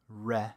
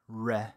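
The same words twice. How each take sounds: First: The r is an English-style r sound. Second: The same.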